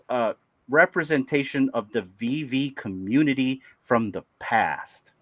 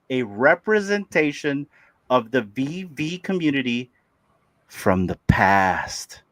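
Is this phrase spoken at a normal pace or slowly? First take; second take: normal; slowly. First: The phrase is spoken at a normal pace. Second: The phrase is spoken more slowly.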